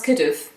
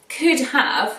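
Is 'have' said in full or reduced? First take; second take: reduced; full. First: The word have is reduced, sounding like of. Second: The word have is said fully and clearly.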